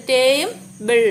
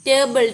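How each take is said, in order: First: "ടേ" and "ബിൾ" sounded apart, slowly; slow split "ടേ... ബിൾ"; two separate syllables. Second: Said in the usual way. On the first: Shown as a demonstration. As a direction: pause before "ബിൾ". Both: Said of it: "ടു syllable words".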